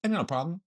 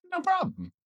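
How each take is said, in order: First: Soft, lightly acted reply; meme imitation. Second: Soft, high-pitched meme squeak; tiny high voice quoting a meme; meme imitation. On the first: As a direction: quietly quote a meme. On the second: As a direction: flip up high but keep it small. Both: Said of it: "like the one meme".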